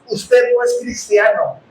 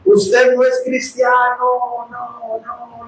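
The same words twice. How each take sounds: First: Slow, deliberate pronouncement; pastor's firm verdict. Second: Echoing voice. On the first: Preacher quoting what the pastor said on the recording, firm slow verdict. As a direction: quote a preacher laying down a verdict. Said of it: "dijo el pastor Chuy así". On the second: Preacher re-enacting the voice he heard while driving, slow fading echo. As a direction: imitate an echo ringing in the head. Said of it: "yo escuché esa voz así, hermanos". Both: Retold or imitated.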